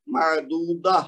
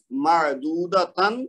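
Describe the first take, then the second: First: "معدودہ" ending in h, no tan; stopping with ha. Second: Slow "معدودتن" with tan fully sounded; full unpaused form. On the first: Teacher answers how to read it when stopping, final h. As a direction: stop on "معدودہ" with a breathed final h. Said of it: "اگر رکیں گے تو". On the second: Teacher reads the next example, full tan ending. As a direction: pronounce "معدودتن" through to a clear t-a-n. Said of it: "ہم اس کو کیا پڑھیں گے". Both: Shown as a demonstration.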